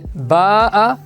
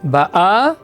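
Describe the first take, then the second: First: The stress is on the first syllable. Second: The stress is on the last syllable. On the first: She came in the past. "le taram et l'intonation sont sur la lettre Bet" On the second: She is coming now. "le taram et l'intonation sont sur la lettre aleph du mot Ba'a"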